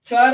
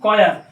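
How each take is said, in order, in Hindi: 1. यह शब्द ch ध्वनि से शुरू होता है। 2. यह शब्द k ध्वनि से शुरू होता है।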